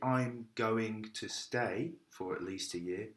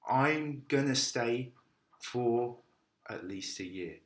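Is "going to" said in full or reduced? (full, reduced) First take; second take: full; reduced. First: "Going to" is said in full. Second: "Going to" is reduced to "gonna". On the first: The speaker calls it wrong. "But I don't say" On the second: The speaker calls it right. "I say I'm gonna stay"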